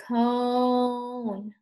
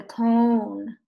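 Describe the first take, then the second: First: CONE with a very long O; drawn-out slow. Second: Said in the usual way. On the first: Shown as a demonstration. Teacher inviting pupils to repeat, drawn-out slow CONE. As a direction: stretch CONE out on a held note. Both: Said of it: "Can you say cone?".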